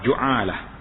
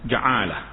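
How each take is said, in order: First: The first vowel is a u sound. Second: The first vowel is an a sound. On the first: "Dan baris hadapan" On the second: "boleh dibaca dengan baris atas"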